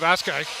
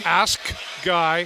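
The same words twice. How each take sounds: First: Said quickly, with the K sound dropped. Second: Said slowly, with the K clearly pronounced. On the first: The speaker calls it wrong. "Instead of" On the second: The speaker calls it right. "Do you know how I say that slowly?"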